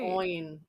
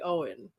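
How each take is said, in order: First: The name does not rhyme with glowing. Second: The name rhymes with the word glowing. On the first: The speaker calls it wrong. "I don't like that as much" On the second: The speaker calls it right. "I like to make them kind of rhyme with each other"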